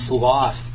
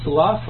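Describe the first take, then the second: First: The word rhymes with 'cough', ending in an f-sound. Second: The word rhymes with 'enough', ending in an f-sound. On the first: "Nobody says it that way either" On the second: "That would be the slough of the swamp. And that's actually a word"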